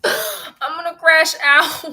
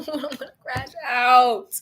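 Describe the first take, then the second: First: Half-laughing fake sob, slow; comic wail over the bank charge; mock crying. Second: Said through a laugh, slow; laughing at her own meltdown. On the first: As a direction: whimper it out like you're about to cry. Bank charge, real distress. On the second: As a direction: giggle the words out. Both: Real, not acted.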